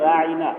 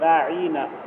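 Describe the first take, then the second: First: The middle vowel is said short and plain. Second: The middle vowel is stretched out longer. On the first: Please have regard for us. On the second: Our shepherd.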